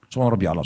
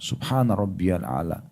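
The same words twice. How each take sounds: First: It is said fast and rushed. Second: It is said slowly and calmly. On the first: The prayer is rushed and unclear. The speaker calls it wrong. "Apa yang dibaca? Hah? Apa yang dibaca?" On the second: The prayer is recited with composure. The speaker calls it right. "Berhenti sejenak"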